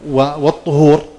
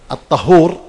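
First: The first vowel is a rounded 'u' sound. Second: The first vowel is an open 'a' sound. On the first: It names the act of purification. "والطهور الفعل كذا" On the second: It names the purifying water itself. "الطهور هو نفس الماء"

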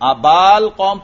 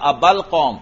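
First: The vowel before the article is long. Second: The vowel before the article is short. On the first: The speaker calls it wrong. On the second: The speaker calls it right.

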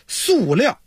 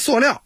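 First: It is pronounced the standard way. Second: It is pronounced the Beijing dialect way. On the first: The speaker calls it right. "正确读音咱得说念塑" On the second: The speaker calls it wrong. "这是北京话啊"

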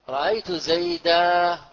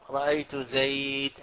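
First: The last word ends in a long 'a' vowel. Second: The last word ends on a bare consonant.

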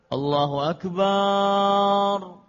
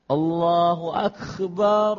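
First: The b sound in Akbar is stretched out long. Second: The k in Akbar becomes a raspy kh sound. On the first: "mengucapkan panjang pada ba, pada kalimat akbarnya" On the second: "kafnya tidak disebutkan kaf, tetapi kha"

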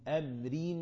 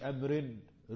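First: The r is said once and runs on. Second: The r is split off and repeated. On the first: The speaker calls it right. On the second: The speaker calls it wrong.

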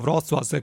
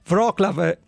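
First: It is said with native Polish sounds. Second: It is said with Italian-style letter sounds. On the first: This is how the name is actually pronounced. "così si pronuncia" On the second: This is how the name is written. "così è scritto"

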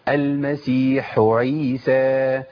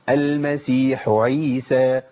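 No difference in how they are said.

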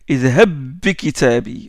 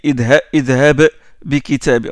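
First: The two b sounds merge into one b. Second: The two b sounds are pronounced separately. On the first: The speaker calls it right. "On dit ... élision complète" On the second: The speaker calls it wrong. "On ne doit pas réciter"

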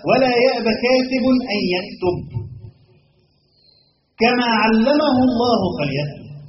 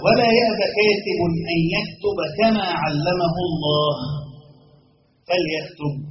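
First: The pause comes after 'yaktub', before 'kama'. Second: The pause comes after 'Allah', before the last word. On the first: He should write as God taught him. "يعني فليكتب كما علمه الله" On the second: The writer should not refuse to write as God taught him. "ولا يأبى كاتب الأول"

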